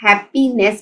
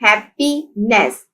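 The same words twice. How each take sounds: First: Said in the usual way. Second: happiness slowly split as hap-py-ness; syllable by syllable. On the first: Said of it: "three syllables हैं". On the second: Shown as a demonstration. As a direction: sound out happiness in three beats. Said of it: "happiness के three syllables हैं".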